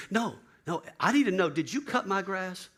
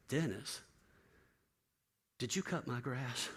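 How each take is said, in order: First: Higher, louder, pressing question; insistent demand. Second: Soft, slow, fragile asking; a broken man barely asking; hushed, slow disbelief; quiet, stunned question. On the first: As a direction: insist on knowing the answer. Bill insisting urgently. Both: Retold or imitated.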